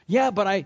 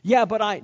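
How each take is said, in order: First: Loud, high whiny "Yeah, but I"; same hammed-up protest; mock excuse. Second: Loud, high whiny "Yeah, but I"; a hammed-up protest; mock excuse. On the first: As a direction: repeat the pleading excuse. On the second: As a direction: play the excuse-maker pleading.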